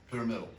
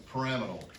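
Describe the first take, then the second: First: Said in the usual way. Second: "pyramidal" as puh-RAM-ih-dul; fancy pronunciation. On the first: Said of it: "Instead of pyramidal". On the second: Shown as a demonstration. Teacher naming the shape the fancy way, "pyramidal" as puh-RAM-ih-dul. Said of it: "sound really fancy".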